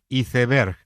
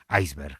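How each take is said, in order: First: The word is pronounced with Spanish sounds. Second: The word is pronounced with English sounds. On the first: This is the recommended form in Spain. "lo recomendable es pronunciarla conforme a nuestra fonética" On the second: This form is widespread in Latin America. "la pronunciación inglesa que es iceberg"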